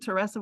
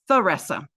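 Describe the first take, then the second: First: The name starts with a hard T sound. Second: The name starts with a TH sound. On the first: This is how the name is said in South Louisiana. "Teresa with a hard T" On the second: This is how the family says the name. "the family says Theresa"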